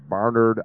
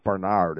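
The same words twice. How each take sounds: First: "Barnard" as BAR-nerd, front-stressed; stressed on first syllable. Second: "Barnard" as ber-NARD; stressed on second syllable. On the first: Host passing on the corrected surname, first-syllable stress. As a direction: say "Barnard" with a weak, reduced second syllable. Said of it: "last name is pronounced Barnard". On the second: Host giving the more poetic surname he liked, second-syllable stress. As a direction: say "Barnard" with the weight on a long NARD. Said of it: "I always liked Barnard". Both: Shown as a demonstration.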